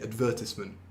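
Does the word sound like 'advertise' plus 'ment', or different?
different. It does not sound like advertise plus ment. This is the form older people use. "older people tend to say advertisement"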